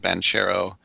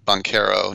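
First: The name is given a non-Italian pronunciation. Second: The name is given an Italian pronunciation. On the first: This is not how the player himself says it. The speaker calls it wrong. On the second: This is how the player himself says it. The speaker calls it right. "he pronounces it the Italian way"

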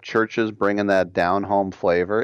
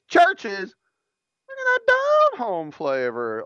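First: It is read flat with little energy. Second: It is read lively with much energy. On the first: The speaker calls it wrong. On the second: The speaker calls it right.

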